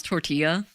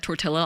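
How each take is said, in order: First: "tortilla" with a y sound for LL; proper Spanish pronunciation. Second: "tortilla" with a hard L; wrong, Anglicized pronunciation. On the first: Shown as a demonstration. Streamer telling chat about learning a word, "tortilla" as tor-TEE-ya. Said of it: "never knew how to pronounce". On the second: Retold or imitated. Streamer retelling an on-stream slip, "tortilla" as tor-TILL-a. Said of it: "Hispanics in chat were really mad".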